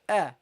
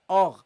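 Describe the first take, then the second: First: The vowel sounds light and clear. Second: The vowel sounds heavy and dark. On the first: The speaker calls it right. "No, a, a. You start light" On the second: The speaker calls it wrong. "don't say or"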